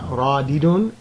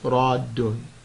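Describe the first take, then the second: First: The two d sounds are separated by a vowel. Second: The two d sounds merge into one doubled d. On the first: The speaker calls it wrong. "So it's not radidun" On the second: The speaker calls it right. "it's radun"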